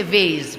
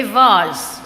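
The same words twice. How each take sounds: First: "vase" said as "vayz", with an "ay" vowel; quick aside giving "vase" as "vayz"; alternate pronunciation. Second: "vase" said as "vahz", long open vowel; "vase" with a drawn-out "ah"; alternate pronunciation. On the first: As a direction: say "vase" to rhyme with "days". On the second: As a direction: say "vase" to rhyme with "cars". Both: Shown as a demonstration. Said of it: "some people say vase".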